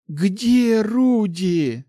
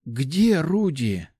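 First: High, loud, very drawn-out cry; anguished, slow, raised plea; disbelieving dread. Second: Slow, careful, raised question; hesitant, drawn-out asking; cautious question. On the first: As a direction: wail the question, refusing to believe it. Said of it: "Замирающим сердцем и не веря своим глазам". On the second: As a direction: ask it warily, stretching the words. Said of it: "повторяет она свой вопрос уже с осторожностью". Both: A narrator's reading.

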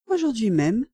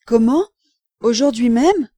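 First: Unruffled answer at normal volume; composed, matter-of-fact repeat; calm confirmation. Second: Loud, astonished echo question; startled disbelief. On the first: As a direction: confirm it calmly, without raising the voice. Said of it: "répondis-je tranquillement". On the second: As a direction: jump at the news, aghast. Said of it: "Monsieur Barbette fit un bond". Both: A narrator's reading.

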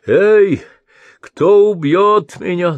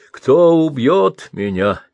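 First: A high, loud cry like an owl, slow "кто"; hooting shout. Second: "Кто" drawn out, higher and louder, slowly; pleading to the sky. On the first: Blind old man calling into the night, owl-like shout. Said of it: "заухал, закричал, как филин". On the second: Old man begging the heavens for death, slow loud plea. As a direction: beg the heavens with a slow rising cry. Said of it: "взмолился в небо". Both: Acted.

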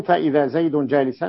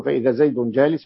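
First: "جالسا" ending in -an; accusative ending. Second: "جالس" ending in -un; nominative ending. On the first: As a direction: read "جالسا" as jālisan, with the -an ending. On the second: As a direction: read "جالس" as jālisun, with the -un ending. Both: Shown as a demonstration. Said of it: "بدل ما يقولوا".

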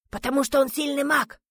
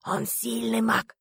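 First: Raised-pitch, strained reply; hushed answer. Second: Drawn-out, very slow repeat; concluding restatement. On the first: Hidden teammate explaining why the man is needed, high strained hush. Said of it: "Разговаривали мы все шёпотом". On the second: Корнеев finishing his speech to the hidden team, slow and drawn out. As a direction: restate it slowly, stretching every word. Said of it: "завершил свою речь Корнеев". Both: A narrator's reading.

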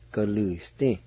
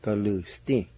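First: Galusti said smoothly as one word, the Y only faintly heard; natural-speed Galusti. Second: Said in the usual way. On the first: Shown as a demonstration. Teacher giving the real everyday pronunciation of Galusti. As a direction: say Galusti the way it is actually said. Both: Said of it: "the way it is actually said".

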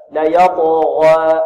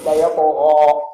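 First: يطغى with the alif drawn thin and light, not full; يطغى said with a weak, half-thinned ghayn; تفخيم ناقص في يطغى; wrong thin ghayn. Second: يطغى with the ghayn and alif both fully heavy; تفخيم كامل; correct full heaviness. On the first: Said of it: "ينطقها هكذا". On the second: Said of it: "هل الغين مفخم مفخم؟". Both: Shown as a demonstration.

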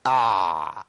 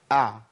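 First: أع with the ayn dragged out long and low; wrong overlong ayn. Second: أع with the ayn briefly sounded, then stopped; correct still ayn. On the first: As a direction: stretch the ayn in أع far too long. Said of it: "لا، ده خطأ". (أع ممطوطة بزيادة) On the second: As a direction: let أع flow just a moment from the throat. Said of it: "أسمع صوت العين بقى". (أع ساكنة بتوسط من غير تطويل) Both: Shown as a demonstration.

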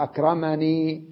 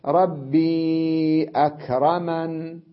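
First: أكرمني with a full final ee; original form. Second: Slow recitation, أكرمن closed on a held n; stop on vowelless n. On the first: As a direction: sound the ee ending of أكرمني. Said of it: "هي أصلها". (الأصل بإثبات الياء) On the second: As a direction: draw out ربي, end أكرمن without ee. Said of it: "ووقف على النون بالسكون". (ترتيل بالوقف على النون) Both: Shown as a demonstration.

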